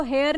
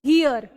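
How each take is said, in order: First: "हेयर" with an "ay" vowel, like hair; mispronounced HERE. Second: "हियर" with a long "hee" start; correct HERE pronunciation. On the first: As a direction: say "हेयर" with an open "hay" start instead of "hee". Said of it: "इसको हेयर नहीं बोलते हैं". ("हेयर" को "हे" की आवाज़ से, गलत उच्चारण) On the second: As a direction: say "हियर" as "hee-yer", teaching the vowel clearly. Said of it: "बोलते हैं हियर". ("हियर" को "ही-यर" जैसा, सही उच्चारण) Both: Shown as a demonstration.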